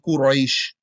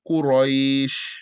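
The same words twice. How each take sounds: First: The vowel is said hard and cut short. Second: The vowel is said softly and drawn out. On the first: The speaker calls it wrong. "So you don't say Quraysh" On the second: The speaker calls it right. "soft and easy"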